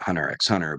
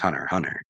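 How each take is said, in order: First: The middle letter X is spoken aloud. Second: The middle letter X is left silent. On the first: This is how most people say it. "people pronounce it" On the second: The X is meant to be a space. "I think it's just"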